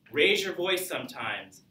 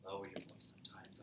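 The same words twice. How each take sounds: First: Raised voice. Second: Lowered voice. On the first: Teacher shows students vocal variety, raised voice. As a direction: lift pitch high on "raise". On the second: Teacher shows students vocal variety, lowered voice. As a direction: drop very soft and lower in pitch. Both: Shown as a demonstration.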